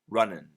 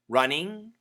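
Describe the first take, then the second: First: The ending is reduced to an 'un' sound. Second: The ending is a full 'ing' sound. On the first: Very fast, casual speech. "if we say it really fast, it sounds like un" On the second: Careful, clear speech. "The first pronunciation is ing, which is perfect"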